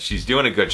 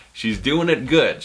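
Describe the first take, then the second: First: "doing" punched, the rest quick and falling; stress on doing. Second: "it" stretched and slowed with falling emphasis; stress on it. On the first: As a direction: lean on "doing", let "it good" drop away. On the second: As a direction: hit the word "it" slowly and firmly. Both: Shown as a demonstration.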